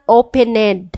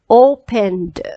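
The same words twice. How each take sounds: First: The ending is said as an extra syllable. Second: The ending is said as a plain d sound. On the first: The speaker calls it wrong. "It's not opened. No, no, no" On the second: The speaker calls it right. "So the ed sounds d"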